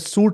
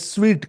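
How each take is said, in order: First: The word sounds like 'soot', without a w. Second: The word sounds like 'sweet', with a w. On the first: The speaker calls it wrong. "कुछ लोग इसे सूट कहते हैं" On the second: The speaker calls it right. "इसे स्वीट कहते हैं"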